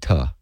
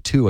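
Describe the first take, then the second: First: The word has a reduced 'uh' vowel. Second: The word has a full 'oo' vowel. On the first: "I say ta" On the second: "I don't say to"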